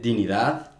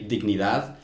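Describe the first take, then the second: First: "dignidad" with the G left out; imitated mispronunciation. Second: "dignidad" with the G sounded before the N; correct Spanish pronunciation. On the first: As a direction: drop the G in "dignidad", di-ni-dad. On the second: Shown as a demonstration. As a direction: say the G in "dignidad", dig-ni-dad. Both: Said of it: "he forgot a G there as well".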